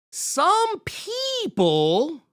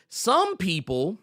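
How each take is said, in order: First: "Some people" drawn out very slowly and high; pointed emphasis. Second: Said in the usual way. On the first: Shown as a demonstration. Host calling out unnamed critics, "Some people" high and drawn out pointedly. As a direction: stretch "Some people" with a high, exaggerated swoop.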